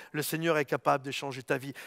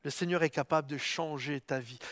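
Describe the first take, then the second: No difference in how they are said.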